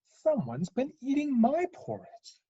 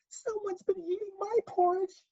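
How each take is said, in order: First: It is said in a medium-sized voice. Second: It is said in a wee, small voice.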